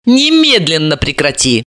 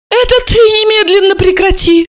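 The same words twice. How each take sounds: First: Said in the usual way. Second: High-pitched indignant yell; wailing yell. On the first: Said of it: "ору значительно тише". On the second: A narrator's reading. Mother to her pregnant daughter, wailing in outrage. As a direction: yell it back at the top of your voice. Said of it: "Альбина Яновна завопила".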